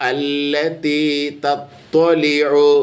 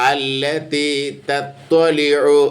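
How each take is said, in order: No difference in how they are said.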